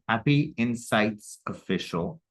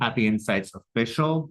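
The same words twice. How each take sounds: First: The name is said at a slower pace. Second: The name is said at a normal pace.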